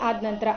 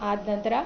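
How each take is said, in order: No difference in how they are said.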